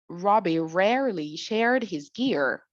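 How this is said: It is said in an American accent. "When it comes to the American people, they would say"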